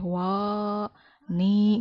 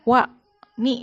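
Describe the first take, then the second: First: The vowels are drawn out long. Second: The vowels are said short. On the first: The speaker calls it wrong. "Nggak boleh" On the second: The speaker calls it right. "Kosor itu pendek ya, dibacanya pendek"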